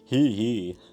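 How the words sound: It is said in a very low, deep voice.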